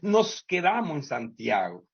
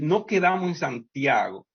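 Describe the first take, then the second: First: The s at the end of nos is pronounced. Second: The s at the end of nos is dropped.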